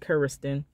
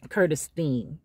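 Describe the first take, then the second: First: The name ends with a 'ston' sound. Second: The name ends with a 'steen' sound. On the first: This is how the mother said the name, following its spelling. "she wanted to pronounce it Curiston" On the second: This is how the grandmother said her own name. "grandma called herself Curtistine"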